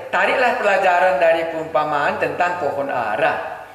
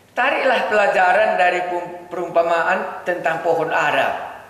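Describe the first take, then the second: Both takes have the same delivery.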